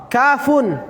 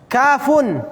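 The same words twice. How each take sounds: The two takes are said the same way.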